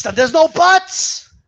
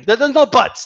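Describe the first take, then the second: First: High, slow, drawn-out put-on voice; cartoonish scolding; stretched mock voice. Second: Said in the usual way. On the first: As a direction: drag out no buts to mock them.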